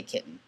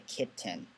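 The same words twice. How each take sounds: First: "kitten" with the middle T swallowed as a glottal stop; "kitten" as ki'en, no T sound. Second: "kitten" said with a crisp, fully released T in the middle; kitten with a clear T. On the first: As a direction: say "kitten" Southern New England style, catch in the throat for the T. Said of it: "You can hear I say it weird". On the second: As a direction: say "kitten" the standard way, T sounded out. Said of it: "some people say kitten". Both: Shown as a demonstration.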